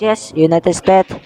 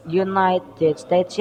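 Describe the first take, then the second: First: Said in the usual way. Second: "United States" drawn out slowly, each syllable spelled out, softer and tentative with a rising end; slow careful United States. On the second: Shown as a demonstration. Presenter testing the name for viewers, slow and careful.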